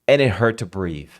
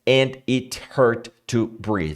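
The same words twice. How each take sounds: First: The word 'it' is tiny and barely heard. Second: Every word is said fully in a flat voice. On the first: The speaker calls it right. "o it fica miúdo, miúdo, ele fica pequenininho" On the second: The speaker calls it wrong. "ninguém fala assim. Monotônico"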